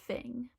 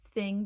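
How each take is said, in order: First: It starts with an f sound. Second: It starts with a th sound. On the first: "fing with an F" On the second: "the th sound, th that we pronounce with our tongue out"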